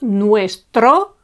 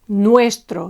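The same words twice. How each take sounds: First: The stress is on the last syllable. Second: The stress is on the first syllable. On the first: The speaker calls it wrong. "not nuestro" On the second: The speaker calls it right. "it is the penultimate syllable that's accentuated"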